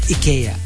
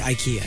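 First: The name is said the official way. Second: The name is said the American way. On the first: "Or as they say it" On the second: "the Americans say IKEA"

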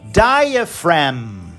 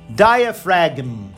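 First: The g before the m is silent. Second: The g before the m is pronounced. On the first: The speaker calls it right. "a pessoa vai falar diaphragm" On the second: The speaker calls it wrong. "a pessoa não fala diaphragm"

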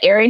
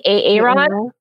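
First: The name starts with a plain, ordinary opening sound. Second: The opening sound is split off and drawn out. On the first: This is the name as its owner says it. The speaker calls it right. "instead of Aaron" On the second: This is a mocking mispronunciation of the name. The speaker calls it wrong.

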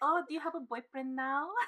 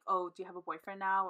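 First: It is said in a Filipino accent. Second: It is said in her plain accent.

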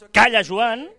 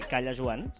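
First: It is said forcefully, as an exclamation. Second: It is said flatly, without exclamation.

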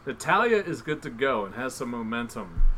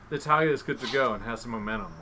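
First: It is said slowly. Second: It is said fast.

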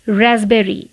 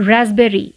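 The two takes are said the same way.

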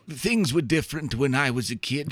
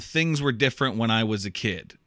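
First: It is said in a put-on old man voice. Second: It is read in the speaker's normal voice.

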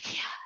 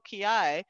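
First: It is soft and breathy, with air escaping. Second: It is loud and forceful, with compressed air. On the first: The shout has no power behind it. The speaker calls it wrong. "like Marilyn Monroe, you know, kind of, you know, breathy" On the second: The shout carries power. The speaker calls it right. "in a loud voice"

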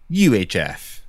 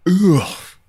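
First: It is spoken as three separate letters. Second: It is spoken as one short word, oof. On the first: "You don't have to spell in front of me" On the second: "I've been pronouncing it oof"

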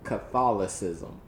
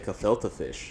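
First: The word is said in its full standard form. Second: The word is said in a mangled, simplified form. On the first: The speaker calls it right. "there you go. You got it" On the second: The speaker calls it wrong. "I'd rather try to say cathilta fish. I think that to me is easier to say"

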